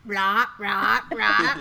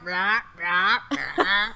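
First: Croaky frog sounds, louder. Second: Croaky frog sounds. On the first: Shown as a demonstration. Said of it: "Do it again". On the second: Retold or imitated. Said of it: "They're like".

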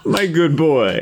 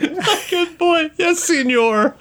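First: A slow, amused take on the dealer's line; mock mimicry. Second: Much higher, slow, laughing mimicry; mock mimicry. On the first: Player repeating the dealer's phrase, slow and teasing. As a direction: draw it out, laughing. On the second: Game master parroting the dealer's phrase, high and slow. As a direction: pitch it way up and stretch it. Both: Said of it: "trying to assimilate their, like, the way they talk".

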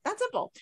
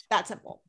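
First: Much higher sing-song that simple; mocking high that simple; emphatic repeat. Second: Said in the usual way. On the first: Real, not acted. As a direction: lift it up to drive the point. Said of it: "repeated higher".

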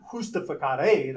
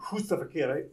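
First: Justificare said the Spanish way, with an h-like j; Spanish pronunciation. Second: Said in the usual way. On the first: Shown as a demonstration. Preacher giving the Spanish reading of justificare. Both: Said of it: "that's how you'd say it in Spanish".

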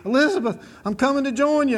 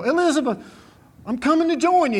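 First: Playful mock heart-attack cry, higher and a little louder; a cowboy hamming up a fake heart attack after a great ride; Fred Sanford. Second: Mock heart-attack cry, pitched high and loud; hammed-up cry to his late wife as if his heart is giving out; Fred Sanford. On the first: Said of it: "He'd act like he's having a heart attack". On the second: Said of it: "old Fred Sanford, he go".

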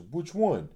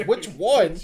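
First: Said in the usual way. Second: Which one? thrown back high and loud, stress on one; mock the words Which one? in loud disbelief; outraged echo. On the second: Friend repeating the guy's answer Which one? in loud disbelief.

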